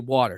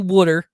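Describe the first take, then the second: First: It is said in a general American accent. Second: It is said in a Philadelphia accent. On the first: This is how the speaker says it now. The speaker calls it right. "I had to teach myself to say water. So that's how I say it" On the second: This is how the speaker said it growing up. The speaker calls it wrong. "I don't say water, but I did for more than half my life"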